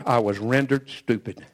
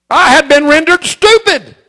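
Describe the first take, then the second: First: Much lower and softer, "stupid" let fall; hushed admission. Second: "stupid" dragged out high and loud, slow; emphatic declaration. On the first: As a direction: drop the voice and murmur "stupid". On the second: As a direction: lean hard on "stupid" and slow it right down. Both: Acted. Repeated line, emphatic then hushed.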